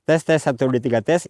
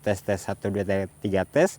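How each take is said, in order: First: Background noise is strongly suppressed behind the voice. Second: Background noise is slightly reduced behind the voice. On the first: "menggunakan noise reduction di level high" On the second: "kalau pakai noise reduction di level satu"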